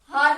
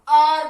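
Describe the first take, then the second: First: The word begins with an h sound. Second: The word begins with a vowel sound. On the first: The speaker calls it wrong. "ये हार नहीं बोलते" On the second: The speaker calls it right. "इसको हम आर बोलते हैं"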